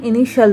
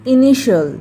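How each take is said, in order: First: इनिशियल said correctly as i-ni-shal, three syllables; teacher's correct i-ni-shal for इनिशियल; correct pronunciation. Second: इनिशियल said wrongly as i-ni-shi-yal, four syllables; wrong pronunciation. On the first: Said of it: "इनिशियल पढ़ते हैं". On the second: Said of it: "इसको इनिशियल नहीं पढ़ते हैं". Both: Shown as a demonstration.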